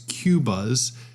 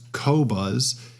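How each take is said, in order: First: The first syllable sounds like 'kyoo'. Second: The first syllable sounds like 'koh'. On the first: The speaker calls it wrong. "Mispronunciation is Q-buzz" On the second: The speaker calls it right. "the correct pronunciation is co-buzz"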